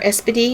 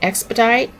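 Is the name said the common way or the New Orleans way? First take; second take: New Orleans; common. First: The name is said the New Orleans way. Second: The name is said the common way.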